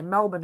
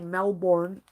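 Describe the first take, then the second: First: It is said with a local Australian pronunciation. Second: It is said with an American-style pronunciation. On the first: This is how locals normally say it. "we usually say Melbourne" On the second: It is said this way just for fun. "but I say Melbourne. I just like to say it for fun"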